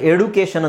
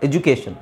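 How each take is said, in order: First: The middle consonant is a plain d sound. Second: The middle consonant is a j sound. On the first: The speaker calls it wrong. "ಎಡುಕೇಷನ್ ಅಂತ ಹೇಳಲ್ಲ" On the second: The speaker calls it right. "ಜು ಅಂತ ನಾವು ಹೇಳಬೇಕು"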